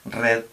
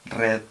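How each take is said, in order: First: The r is rolled with the tongue tip. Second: The r is rolled with the tongue tip.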